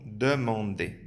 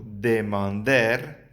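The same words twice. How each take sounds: First: Demander with a silent r, ending in an open e; correct French demander. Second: Demander read the Spanish way, with a sounded final r; misread demander. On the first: The teacher shows the right French pronunciation. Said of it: "sino demander". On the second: The teacher shows students the wrong way, Spanish-style. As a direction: mispronounce demander as if it were Spanish. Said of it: "lo estás leyendo demander, que no se pronuncia". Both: Shown as a demonstration.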